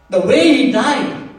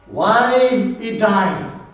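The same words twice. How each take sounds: First: "way" hit high and louder, rising at the end; stress on way. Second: "Why" drawn out long and slow, then falling; stress on why. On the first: Preacher dismissing the wrong emphasis, stress on "way". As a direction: punch "way" and leave "he died" hanging. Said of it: "Don't major on the way". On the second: Preacher showing church the right emphasis, stress on "Why". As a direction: stretch "Why" and let "he died" fall. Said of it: "That's the emphasis". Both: Shown as a demonstration.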